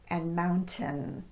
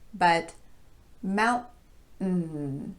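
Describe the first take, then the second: First: The T is a clear T. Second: The T is a glottal stop. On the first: "a normal T sound in place of the glottal stop" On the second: "we would use the glottal stop there"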